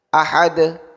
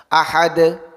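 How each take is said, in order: Both takes have the same delivery.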